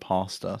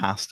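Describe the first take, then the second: First: It is said with an American pronunciation. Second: It is said with a British pronunciation. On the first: "instead of pasta" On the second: "we also say pasta"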